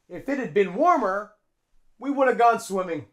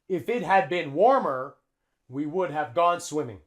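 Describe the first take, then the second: First: The words are reduced and run together. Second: Every word is said fully and separately. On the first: The speaker calls it right. "the F links onto the I, and we use a contraction here" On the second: The speaker calls it wrong. "Native English speakers don't say that"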